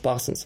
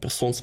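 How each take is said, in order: First: The first vowel sounds like 'a'. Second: The first vowel sounds like 'e'. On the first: The speaker calls it right. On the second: The speaker calls it wrong.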